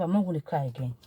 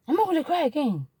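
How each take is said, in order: First: Said in the usual way. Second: High-pitched, emphatic repeat falling at the end; emphatic resolve. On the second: Retold or imitated. Wife vowing to herself to stop crying, emphatic resolve. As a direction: declare it firmly, pitched high.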